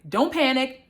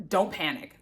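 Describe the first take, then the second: First: Said in the usual way. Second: Low, soft "don't panic" under the breath; calm yourself down quietly; softly telling yourself "don't panic"; hushed self-talk. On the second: Retold or imitated. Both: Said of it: "And I'm like, "Oh my God".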